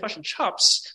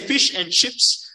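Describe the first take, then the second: First: It is said with a New Zealand vowel. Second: It is said with a non-New Zealand vowel.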